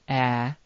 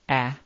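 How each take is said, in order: First: The vowel is held for a long time. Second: The vowel is held very briefly. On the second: "It can appear short"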